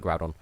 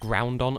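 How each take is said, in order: First: No N sound comes before the D. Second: An N sound comes before the D. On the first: The speaker calls it right. "I call it Groudon" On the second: The speaker calls it wrong. "I used to pronounce it Groundon until I realized there wasn't an N in there"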